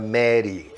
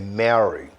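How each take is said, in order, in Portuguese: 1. O R soa como o R do português brasileiro. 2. O R é feito com a língua curvada para trás. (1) "não é Mary" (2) "é Mary"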